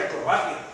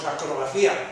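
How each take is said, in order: First: The stress falls on the ba syllable. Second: The stress falls on the ci syllable. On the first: This is the standard form of the word. "sabemos que se dice acrobacia" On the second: This is the casual way pilots say it. "decimos que hacemos acrobacía ... con un acento en la I"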